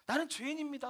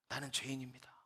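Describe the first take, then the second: First: Higher, pleading tremble on 나는 죄인입니다; retold trembling cry. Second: Quiet, lower, tearful confession; retold sobbing prayer. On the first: Teacher praying before the missionary, higher trembling tearful cry. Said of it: "막 몸을 떨면서". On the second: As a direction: softly confess as if starting to weep. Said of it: "막 흐느껴 울더라는 거예요".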